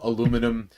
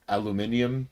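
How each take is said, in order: First: It is said the American way, four syllables. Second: It is said the British way, five syllables. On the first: "they call aluminum"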